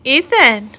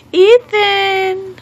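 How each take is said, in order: First: Said in the usual way. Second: High, drawn-out singsong name call. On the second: Real, not acted. Mother calling her baby, high drawn-out call.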